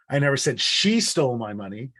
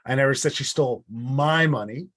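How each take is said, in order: First: The word 'she' carries the main stress. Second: The word 'my' carries the main stress. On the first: Someone else took it. "It wasn't her, it was them" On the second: It was someone else's money. "It wasn't my money that was stolen, it was theirs"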